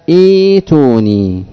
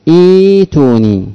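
No difference in how they are said.

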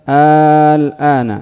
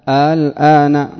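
The two takes are said the same way.

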